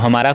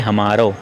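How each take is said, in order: First: The word ends with an 'a' vowel. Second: The word ends with an 'o' vowel. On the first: This is the standard Hindi form. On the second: This is how Braj speakers say it.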